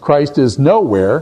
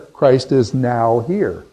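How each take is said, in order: First: The last part is said as one word. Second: The last part is split into two words. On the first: Christ is absent everywhere. "whether you split it here, nowhere" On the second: Christ is present at this moment. "or whether you split it here, now here"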